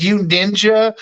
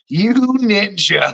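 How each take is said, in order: First: Said in the usual way. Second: Slow, stretched YOU NINJA; drawn-out teasing. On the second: Retold or imitated. Catching a friend trying to get a rise, drawn-out playful tease. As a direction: draw out "you ninja" with a laugh.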